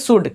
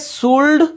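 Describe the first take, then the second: First: The L sound is left silent in the word. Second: The L sound is pronounced in the word. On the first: The speaker calls it right. "बल्कि शुड" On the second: The speaker calls it wrong. "ये शुल्ड नहीं पढ़ेंगे"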